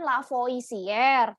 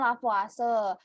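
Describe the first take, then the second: First: Every letter is sounded as it is written. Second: The name is pronounced the French way. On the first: The speaker calls it wrong. "kalau tulisannya bacanya kan Lavoisier" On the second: The speaker calls it right. "tapi cara bacanya Lavoisier"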